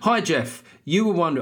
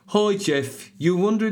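First: It is said in the speaker's normal accent. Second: It is said in a Birmingham accent.

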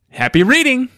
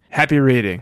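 First: It is said brightly, with lively pitch movement. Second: It is said flatly, with no pitch movement. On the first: It was an enthusiastic sign-off. "Exclamation point" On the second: It was actually a sad sign-off. "No inflection"

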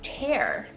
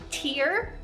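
First: The vowel sounds like the word 'air'. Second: The vowel sounds like the word 'ear'. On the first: To rip something into pieces. "o tienes tear, y significa romper algo en pedazos" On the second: A drop of water from the eye. "Tiene 2 pronunciaciones. Es tear, es una lágrima"

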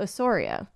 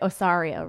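First: The middle syllable has a rounded 'sore' vowel. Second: The middle syllable has an open 'sar' vowel. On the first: "if a Canadian pronouncing them, they'd be like" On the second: "people here probably say Osario"

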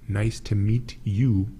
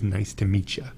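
First: The last word is said as a full 'you'. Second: The last word is reduced to 'ya'. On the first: It is the careful, written form. "Nice to meet you, but we pronounce it as" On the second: It is the casual, everyday form. "we pronounce it as nice to meet ya"

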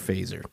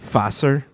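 First: The name is said in an English-sounding way. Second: The name is said in a German-sounding way.

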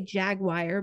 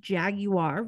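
First: It is said in an everyday American way. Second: It is said in a posh, upper-class way. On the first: This is how the speaker normally says it. "I know I say Jaguar" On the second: This is how wealthy people say it. "the rich pronunciation is Jaguar"

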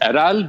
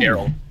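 First: The name is said with Turkish pronunciation. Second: The name is said with English pronunciation. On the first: "the Turkish pronunciation is Eral" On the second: "you guys can go ahead and say Errol"

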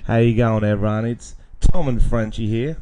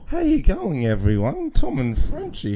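First: It is said in a professional radio voice. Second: It is said in a prepubescent boy's voice.

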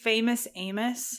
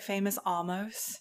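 First: The second word is said as 'Amos'. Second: The second word is said as 'almost'. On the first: The speaker calls it right. "I'm saying it right" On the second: The speaker calls it wrong. "I was calling it Famous Almost"

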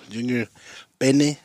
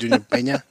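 First: The last vowel of the surname sounds like E. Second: The last vowel of the surname sounds like A. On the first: A casual nickname version of the name. "as I call him when I send him to the store" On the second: The name's actual pronunciation. "but it's actually"

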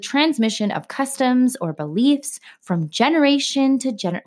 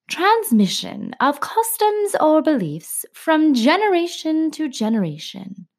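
First: It is read in a plain everyday voice. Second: It is read in a formal, bookish voice.

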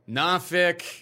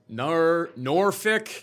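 First: The name is said in the local way. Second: The name is said in a non-local way. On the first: The speaker calls it right. "I think that's how the locals say it" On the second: The speaker calls it wrong. "definitely not Norfolk"

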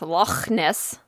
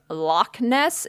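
First: Loch ends in a throaty, raspy sound. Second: Loch ends in a plain hard k sound. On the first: The speaker calls it right. "It's with a phlegm" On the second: The speaker calls it wrong. "it's not pronounced Loch Ness"

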